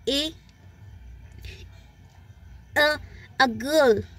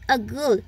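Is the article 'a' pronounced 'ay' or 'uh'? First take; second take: ay; uh. First: The article is a full stressed 'ay'. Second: The article is a short unstressed 'uh'. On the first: "उसको हम ए pronounce करते हैं strong form में" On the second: "यहाँ पर मैं उसको वीकर फॉर्म में ले रही हूँ"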